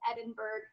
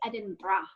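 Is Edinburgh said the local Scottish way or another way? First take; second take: another way; Scottish way. First: Edinburgh is said in a non-Scottish way. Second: Edinburgh is said the way Scottish people say it. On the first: "I have noticed there's a lot of Edinburgh" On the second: "in Scotland they say Edinburgh"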